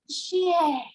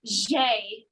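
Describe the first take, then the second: First: "J" as the teacher's exaggerated French correction; corrected French J. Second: "J" said the pupil's bad way, drawn out; mispronounced French J. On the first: Frustrated French teacher correcting a pupil, "J" in emphatic French. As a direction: stress the proper French "J", voice shifted. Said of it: "It's not J, it's J". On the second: French teacher quoting her pupil's error, "J" slowly botched. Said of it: "she would be like, "It's not J".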